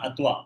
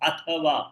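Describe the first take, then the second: First: The middle t is clipped with no vowel. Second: The middle t is full with a vowel. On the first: The speaker calls it wrong. "not atva" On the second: The speaker calls it right. "the ta should be full ta, not half ta"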